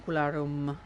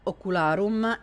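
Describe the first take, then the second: First: It is said with English-style sounds and R. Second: It is said with Latin-style sounds and R. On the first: The speaker calls it wrong. "let's stop pronouncing Latin words with in English accent" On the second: The speaker calls it right. "to actual Latin pronunciation"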